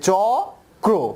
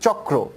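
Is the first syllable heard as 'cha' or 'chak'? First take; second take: cha; chak. First: It is split as an open 'cha' plus 'kra'. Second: It is split as a closed 'chak' plus 'ra'. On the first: The speaker calls it wrong. "আমরা কিন্তু উচ্চারণ করি না যে চ ক্র" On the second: The speaker calls it right. "আমরা normally উচ্চারণ করি চক্র"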